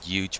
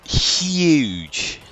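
First: The word is said in a casual pronunciation. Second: The word is said in a careful standard pronunciation. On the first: "Not huge" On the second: "but huge. As we're supposed to pronounce it with English class"

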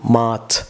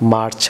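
First: The r sound after the vowel is silent. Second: The r sound after the vowel is pronounced. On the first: The speaker calls it right. "বলুন March. Viewers, এখানে A, viewers, silent থাকবে" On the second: The speaker calls it wrong. "not March"

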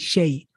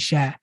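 First: The word ends in the gliding diphthong 'ay'. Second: The word ends in a plain long 'aa' vowel. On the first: The speaker calls it right. "I say shay" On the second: The speaker calls it wrong. "I don't say sha"

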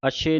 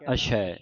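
First: The word ends in a closed 'e' vowel. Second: The word ends in an open 'ai' vowel. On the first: The speaker calls it wrong. "ਅਸ਼ੇ ਨਹੀਂ ਕਹਿਣਾ" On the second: The speaker calls it right. "ਦਲਾਵਾਂ ਲਾ ਕੇ ਉਚਾਰਨ ਕਰਨਾ"

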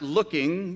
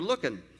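First: The ending is a full -ing sound. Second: The ending is clipped to an -in sound. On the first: "You're not looking" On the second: "you're looking"

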